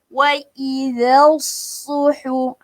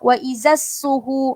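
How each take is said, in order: First: The consonant in 'idha' is a soft 'th' sound. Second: The consonant in 'idha' is a 'z' sound. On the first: The speaker calls it right. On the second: The speaker calls it wrong.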